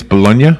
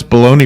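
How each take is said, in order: First: Bologna as "buh-LOHN-yuh"; Italian-style pronunciation. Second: Bologna said as "baloney"; everyday pronunciation. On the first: Host proposes the Italian way, Bologna as "buh-LOHN-yuh?". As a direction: end Bologna on a questioning "-nya". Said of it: "Should we be saying it's". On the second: Host questions the usual American way, Bologna as "baloney". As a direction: say Bologna ending in "-nee". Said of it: "do we pronounce Bologna wrong?". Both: Shown as a demonstration.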